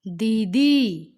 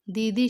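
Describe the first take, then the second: First: दीदी very slow and loud, both ई sounds long and stressed; teacher models दीदी with long ई; drawn-out long ई. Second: Said in the usual way. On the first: Shown as a demonstration. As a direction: stretch each ई of दीदी for a child. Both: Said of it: "ई करते समय इस पे ज़्यादा जोर दिया".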